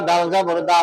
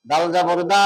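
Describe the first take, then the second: Both takes have the same delivery.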